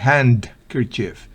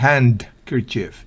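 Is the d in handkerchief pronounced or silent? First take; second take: pronounced; pronounced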